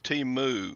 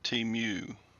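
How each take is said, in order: First: The word ends with a sound like 'moo'. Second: The word does not end like 'moo'. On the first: The speaker calls it right. "The way they were pronouncing it was Timu" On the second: The speaker calls it wrong. "not Timu"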